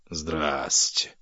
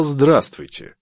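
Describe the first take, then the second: First: Low, understated ironic greeting; sarcastic aside. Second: Higher, louder, full ironic greeting; pointed repeat. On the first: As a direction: drop it as a dry aside. Husband's sarcastic muttered reaction. (саркастически, себе под нос) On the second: (язвительно и громко) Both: Acted.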